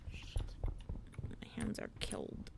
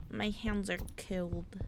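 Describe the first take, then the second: First: Slow breathy whisper, very soft. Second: Said in the usual way. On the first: Shown as a demonstration. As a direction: whisper it slowly to chat. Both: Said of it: "repeated as whisper".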